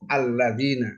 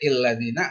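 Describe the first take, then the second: First: The word begins with an a vowel. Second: The word begins with an i vowel. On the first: The speaker calls it right. "harus fathah alladzina" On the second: The speaker calls it wrong. "nggak boleh illadzina"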